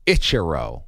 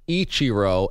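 First: "Ichiro" with a short 'itch' at the start; announcer's mispronunciation. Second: Said in the usual way. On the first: Retold or imitated. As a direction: say "Ichiro" as ITCH-uh-roh. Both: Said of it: "pronouncing Ichiro as Ichiro".

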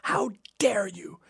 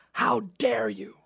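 First: Mock whispered scold. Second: Mock outraged mother. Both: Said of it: "she started screaming at me".

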